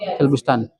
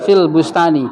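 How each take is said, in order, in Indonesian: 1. Kata terakhir berakhir pada konsonan mati. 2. Kata terakhir berakhir dengan vokal 'i'. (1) "di dalam percakapan sering disukunkan" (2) "setelah harfu jar itu harus kasroh"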